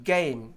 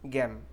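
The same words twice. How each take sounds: First: "गेम" drawn out, e gliding into i; correct "ei" diphthong. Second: "गेम" with short e, like "gem"; wrong non-native vowel. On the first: Teacher correcting learners, "गेम" with a full ei glide. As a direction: stretch "गेम" into "geh-eem". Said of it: "correctly कैसे pronounce करना है". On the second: Teacher showing learners' mistake, "गेम" as short "gem". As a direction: cut the glide from "गेम", say "gem". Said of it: "ये बिल्कुल ही wrong pronunciation है". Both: Shown as a demonstration.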